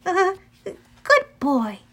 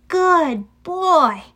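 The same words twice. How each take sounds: First: Slow, high, wavering praise; melancholy and uncertain. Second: Higher, emphatic praise, each word swooping down; praising a dog. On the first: Annabeth says farewell to Cerberus, melancholy and uncertain. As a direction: praise hesitantly, with sadness in it. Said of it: "her voice sounded melancholy and uncertain". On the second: Annabeth rewards Cerberus for sitting, praising. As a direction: praise a big dog firmly. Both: A narrator's reading.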